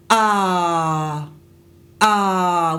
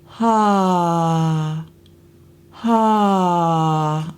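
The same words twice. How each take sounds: First: Hard glottal onset on ah; pressed throat, ah hits hard; glottal attack. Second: Breathy onset. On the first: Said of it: "we don't want that". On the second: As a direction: let the air lead the ha. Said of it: "We want". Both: Shown as a demonstration.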